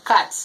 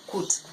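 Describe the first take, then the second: First: Cat with an open "ah", like "cut"; corrected reading. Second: Kut with the vowel of "foot"; misread with "oo". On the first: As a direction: say cat as "kaht", no "oo". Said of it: "It's supposed to be read as". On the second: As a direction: say kut as "koot". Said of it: "we read it as kut". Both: Shown as a demonstration.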